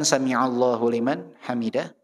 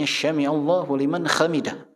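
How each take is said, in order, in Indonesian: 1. Kata pertama diawali dengan bunyi 's' biasa. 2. Kata pertama diawali dengan bunyi 'sh'. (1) "terusnya kan" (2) "dia bacanya ... Jadi sin dibaca ya"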